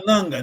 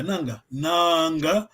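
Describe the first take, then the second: First: "nanga" with a short, clipped first a; "nanga" said quickly, vowel not held; wrong short vowel. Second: "nanga, nanga" slowly, holding the long a; long vowel. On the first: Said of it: "on dit pas nanga". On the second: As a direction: stretch the first a of "nanga". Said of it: "c'est la voyelle longue". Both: Shown as a demonstration.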